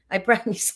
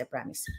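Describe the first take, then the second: First: Said in the usual way. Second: Low, very soft sheepish voice; meek little promise. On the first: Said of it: "sabi ko". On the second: Retold or imitated. Vlogger repeating her meek promise to the household, hushed. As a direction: say it tiny, like a scolded kid. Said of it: "Sabi ko".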